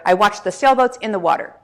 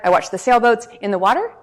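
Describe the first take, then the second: First: The pitch starts high and falls at the end. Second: The pitch starts low and rises at the end. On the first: The speaker sounds confident and committed. The speaker calls it right. "the typical downward inflection starts high, ends low. Sounds like this" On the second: The speaker sounds less sure and less mature. The speaker calls it wrong. "the upward inflection does the exact opposite"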